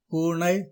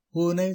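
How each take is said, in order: First: பூனை with n curled into ண; பூனை with retroflex n; wrong ன. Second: பூனை with light tongue-tip n; பூனை, n not curled; correct ன. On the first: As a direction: say பூனை like பூணை. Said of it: "தவறு". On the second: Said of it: "சரி". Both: Shown as a demonstration.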